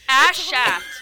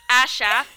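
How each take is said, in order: First: The phrase is said slowly and carefully. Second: The phrase is said fast, with sounds blurred.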